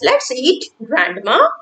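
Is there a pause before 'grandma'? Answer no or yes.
yes. There is a pause before the last word. Grandma is invited to eat with us. The speaker calls it right. "We are taking a pause"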